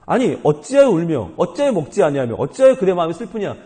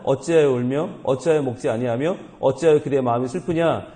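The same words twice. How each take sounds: First: Exasperated, emphatic mock questioning of a wife; baffled husband. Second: Said in the usual way. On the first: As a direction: act the husband who can't understand, pressing each question. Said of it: "도무지 이해를 못하는 거죠". (도무지 이해 못하는 남편의 답답한 말투) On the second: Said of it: "그의 남편 엘가나가 그에게 이르되".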